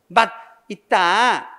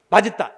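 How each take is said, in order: First: The two parts are said separately, not linked. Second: The final consonant carries over to the next syllable. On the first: The speaker calls it wrong. "이렇게 발음하지 않지?" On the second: The speaker calls it right. "앞에 받침을 뒤로 넘기지"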